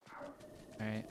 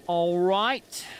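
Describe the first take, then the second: First: Breathy whispered all right; whispering. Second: Much higher, loud cheerful shout. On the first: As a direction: whisper it while sneaking. Sneaking up on fairy. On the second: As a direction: call it out brightly. Loud after success. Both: Real, not acted.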